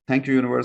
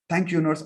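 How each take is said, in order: First: It is read in a flat, unexcited way. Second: It is read in a happy, excited way. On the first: The speaker calls it wrong. "So don't read like" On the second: The speaker calls it right. "read it with happiness"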